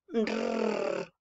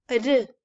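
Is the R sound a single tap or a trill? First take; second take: trill; single tap. First: The r is a long, vibrating trill. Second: The r is a short single tap. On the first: "La lengua se va arriba en el paladar y se vibra" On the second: "la vibración más pequeña. Se mueve una sola vez"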